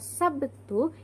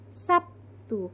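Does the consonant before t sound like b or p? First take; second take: b; p. First: The consonant before t is a clear b. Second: The consonant before t is changed to p.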